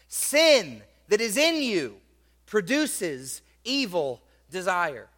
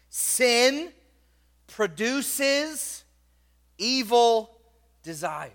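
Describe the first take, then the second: First: Said in the usual way. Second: Sin, produces, evil, desire, each word set apart by pauses, with Sin and produces lifted higher; word by word emphasis. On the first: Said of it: "underline the word produce". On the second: Shown as a demonstration. Preacher hammering the key verse words to his congregation, slow and emphatic. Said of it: "I want you to underline the word sin".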